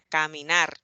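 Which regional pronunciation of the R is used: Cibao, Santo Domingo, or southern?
southern. The r sound is strongly emphasized. "en el sur se le haría un gran énfasis a este fonema"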